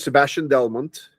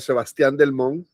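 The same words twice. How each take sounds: First: The name is pronounced the English way. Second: The name is pronounced the Spanish way. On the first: This is how it is said where he lives now. "Here is" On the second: This is how the family in Venezuela says it. "my family in Venezuela was uh"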